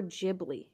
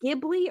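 First: Ghibli with a soft G, as "Jibli". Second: Ghibli with a hard G, as in go. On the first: Asking co-host which is right, Ghibli said with J sound. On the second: Asking co-host which is right, Ghibli said with hard G. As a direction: say Ghibli starting with a hard "guh". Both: Shown as a demonstration. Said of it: "people who pronounce it both ways".

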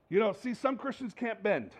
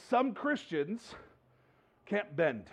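First: Said in the usual way. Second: Some Christians can't bend, drawn out slowly with a pause before can't bend; slow, weighted preacher's point; slow emphasis. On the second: Shown as a demonstration.

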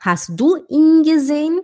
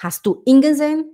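First: "ihn" held as a long "eeen"; slow, higher question stretching "ihn". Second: "ihn" said short, like "in"; higher question with a clipped short "ihn"; wrong short i. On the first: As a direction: linger on the ee in "ihn". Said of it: "é um i longo". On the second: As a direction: rush through "ihn" with a brief lax vowel. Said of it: "não posso falar pra Mônica e falar assim". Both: Shown as a demonstration.

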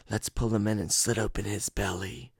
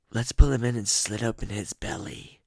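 First: Twin voice. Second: Raspier, a touch higher twin threat; raspy twin voice. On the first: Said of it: "I'm trying to do their voices". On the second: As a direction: rasp it out like the rougher twin. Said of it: "I don't know which one said that". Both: Retold or imitated.

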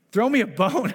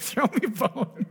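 First: High, loud, whiny mock prayer; a hammed-up plea for scraps; mock begging plea. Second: High, slow, laughing parody of a beggar's plea; a preacher laughing as he mocks a begging believer; mock whine through laughter. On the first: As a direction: beg God like a needy believer. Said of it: "if you go". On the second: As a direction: chuckle while mimicking a whiny ask. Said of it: "I hear this a lot".

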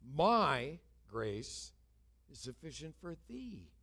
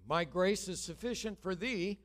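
First: "My" punched loud, "thee" drawn out with a fall; stress on MY and THEE. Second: MY GRACE and THEE leaned on, raised; stressed text. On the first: Shown as a demonstration. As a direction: weigh each word, hitting "My" and "thee". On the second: Retold or imitated. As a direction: lean on the key words of the verse. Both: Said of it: "it came home with emphasis on two words".

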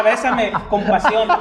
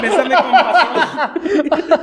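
First: Slow, louder, laughing; mock passionate plea. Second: Very slow, much higher and louder, laughing; hammed-up passionate plea. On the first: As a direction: draw out bésame like a telenovela. (súplica de telenovela, lenta y entre risas) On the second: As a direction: stretch bésame con pasión way out like a telenovela. (súplica melodramática muy lenta, aguda y fuerte) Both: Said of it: "O sea".

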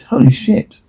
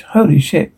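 First: Sudden high shocked outburst; shocked exclamation. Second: Said in the usual way. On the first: Acted. Stunned at what he sees, shocked blurt.

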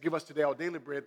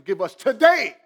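First: Said in the usual way. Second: Loud, high shout that peaks on "today"; screaming emphasis. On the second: Acted. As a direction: shout it as an urgent demand, hammering "today". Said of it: "It's like he's screaming".

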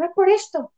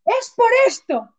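First: Higher but normal-paced "Es por esto"; "Es por esto" said quickly, matter-of-fact; brisk retold realization. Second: High, slow dawning realization; pitched-up, slowed "Es por esto"; slow eureka realization. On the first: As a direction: state the cause briskly. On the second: Retold or imitated. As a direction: draw it out as the penny drops. Sudden realization while crying.

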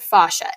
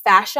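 First: "fascia" with an open ah, FAH-shuh; "fascia" opening on a long "fah"; second pronunciation variant. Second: "fascia" with a short a, as in "fashion"; "fascia" rhyming its first syllable with "cash"; first pronunciation variant. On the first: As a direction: say "fascia" with the broad a of "father". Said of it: "other people pronounce it fascia". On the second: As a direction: say "fascia" as FASH-uh. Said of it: "some people pronounce it fascia". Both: Shown as a demonstration.

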